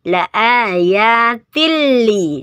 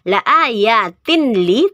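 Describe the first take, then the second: First: The n sound merges into the l. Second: The n sound is pronounced before the l. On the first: The speaker calls it right. "dibacanya la ayatil li, dimasukkan ke lamnya" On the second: The speaker calls it wrong. "bukan dibaca"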